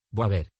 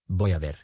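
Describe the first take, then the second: First: «voy a ver» squeezed into «bua ver»; «voy a» contracted. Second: Said in the usual way. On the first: Shown as a demonstration. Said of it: "suprimiendo fonemas". («voy a ver» contraído en «bua ver») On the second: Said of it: "Unieron dos o más palabras".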